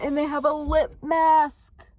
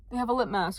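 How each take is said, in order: First: Higher, louder and slow, savoring each word; gushing over the new lip mask; excited. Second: Said in the usual way. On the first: Real, not acted. Telling viewers about the lip mask, thrilled.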